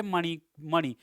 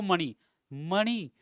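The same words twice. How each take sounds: First: मणि first with dental न, then मणि with retroflex ण; मणि said two ways, dental then retroflex; two spellings contrasted. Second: मणि and मणि spoken very slowly, retroflex ण clear; slow teaching of मणि, मणि; slow contrast demo. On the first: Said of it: "मणि को भी मणि बोलेंगे". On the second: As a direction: draw out मणि, मणि slowly so the nasals differ. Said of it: "मणि लिखो". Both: Shown as a demonstration.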